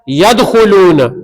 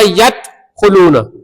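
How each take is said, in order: First: The consonant before kh is a d sound. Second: The consonant before kh is a t sound. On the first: The speaker calls it right. "असल में क्या था" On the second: The speaker calls it wrong. "दाल की जगह ता पढ़ दिया"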